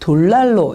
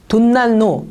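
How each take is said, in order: First: The first syllable ends in an L sound. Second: The first syllable ends in an N sound. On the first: The speaker calls it right. "반드시 돌난로 이렇게 발음을 하셔야 해요" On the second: The speaker calls it wrong. "돈난로 이렇게 발음해도 안 되고요"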